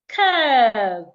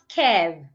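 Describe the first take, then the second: First: The vowel is long. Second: The vowel is short. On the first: The speaker calls it right. "should be articulated as a long sound" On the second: The speaker calls it wrong. "It's not kev"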